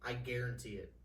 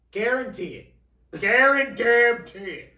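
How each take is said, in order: First: Said in the usual way. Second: Booming slow shout, much higher; loud guarantee. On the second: Real, not acted. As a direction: bellow it like a bold promise.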